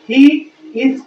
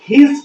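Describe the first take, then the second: First: It is said as two separate full words. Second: It is said as one short contracted word. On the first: "ही इज को" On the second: "हिज पढ़ते हैं"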